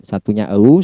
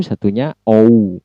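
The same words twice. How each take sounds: First: "O" said as British əu, starting central. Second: "O" said as American ou, starting rounded o. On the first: Teacher contrasting British and American vowels. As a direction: give "O" the British glide from ə to u. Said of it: "ketika dia British style". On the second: Teacher contrasting American with British vowels. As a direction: give "O" the American glide from o to u. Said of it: "ketika logat atau accent American". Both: Shown as a demonstration.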